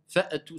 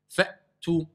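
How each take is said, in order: First: A short vowel sounds after the glottal stop. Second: The glottal stop is a dry stop, no vowel. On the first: The speaker calls it wrong. "ils disent fa'at, fa'atu ... C'est une erreur. Ils lui mettent soit une fatha, soit une qalqala" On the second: The speaker calls it right. "Ça doit être sec. ... c'est juste un blocage"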